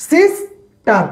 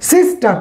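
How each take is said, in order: First: "sister" pulled apart, long pause before "টার"; split into two syllables. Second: Said in the usual way. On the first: Shown as a demonstration. Teacher showing the partition in the middle, "sister" split in two. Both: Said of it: "মাঝখানে একটা partition দেওয়া থাকে".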